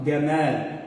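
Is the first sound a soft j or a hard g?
hard g. It begins with a hard g sound, Egyptian-style.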